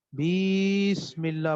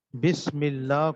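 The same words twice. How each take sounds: First: بیسم اللہ with the first i stretched into a long ee; lengthened vowel. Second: Said in the usual way. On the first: Shown as a demonstration. Tajweed teacher demonstrates adding a letter, overlong vowel. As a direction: hold the opening vowel of بیسم اللہ far too long. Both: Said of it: "لمبا کر دیا نا".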